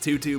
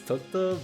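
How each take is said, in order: First: The name is said in the standard way. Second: The name is said in a Japanese-influenced way. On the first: This is the official pronunciation. "apparently it's just Tutu" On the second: This is how the speaker personally says it. "I lived in Japan, so to me it's Toto"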